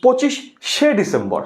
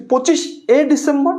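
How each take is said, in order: First: "পঁচিশে" said slowly as পঁচিশ-শে, doubled sh; slow, separate শে at the end of "পঁচিশে"; ending as full শে. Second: "পঁচিশে" said as পঁচিশ-এ, one sh; "পঁচিশে" with plain e ending, tune rising after; ending as bare এ. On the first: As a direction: split "পঁচিশে" and repeat the sh. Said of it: "একটা লিখেছি". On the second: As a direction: add a light এ to পঁচিশ in "পঁচিশে". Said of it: "আমি কিন্তু দুইটা তারিখ লিখলাম". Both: Shown as a demonstration.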